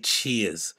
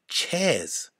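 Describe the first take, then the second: First: The word is said with an 'ear' vowel. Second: The word is said with an 'air' vowel. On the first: The speaker calls it right. "How can he not be able to say cheers?" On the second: The speaker calls it wrong. "Why is it so difficult to pronounce the word cheers?"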